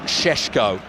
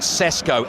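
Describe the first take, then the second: First: The name is said with 'sh' sounds. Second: The name is said with plain 's' sounds. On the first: "I'm told it's pronounced Šeško, sort of a la Sean Connery" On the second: "is written Sesko"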